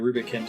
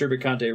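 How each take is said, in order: First: The name ends on the t sound, no vowel. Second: The name ends with a final vowel sound. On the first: The speaker calls it wrong. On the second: The speaker calls it right.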